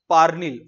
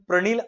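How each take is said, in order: First: The name begins with 'par', the vowel before the r. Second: The name begins with 'pra', the r before the vowel. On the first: The speaker calls it right. "याचं pronunciation पार्निल होतं" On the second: The speaker calls it wrong. "खूप सारे जण प्रणील असं करतात"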